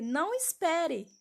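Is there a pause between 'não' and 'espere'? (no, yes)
no. There is no pause after 'não'. The listener is told not to wait. "eu tirei a vírgula"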